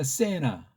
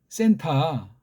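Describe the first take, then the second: First: The word is said with the t sound dropped. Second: The word is said with a clear t sound. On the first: "외국 애들이 그렇게 하니까" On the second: "문맥을 보니까 센타"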